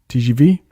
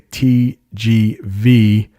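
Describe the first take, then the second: First: The letters are said with French pronunciation. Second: The letters are said with English pronunciation. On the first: "I like the French way of saying it" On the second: "in English we would say"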